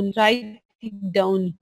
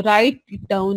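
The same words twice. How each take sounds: First: Very slow, each word drawn out for note-taking; dictating at a crawl; slow dictation. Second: Said in the usual way. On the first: Shown as a demonstration. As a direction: spell it out slowly so they can write. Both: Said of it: "तो आप साथ साथ लिख लो".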